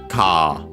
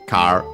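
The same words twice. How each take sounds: First: The word ends in a long vowel without r. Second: The word ends with an audible r sound.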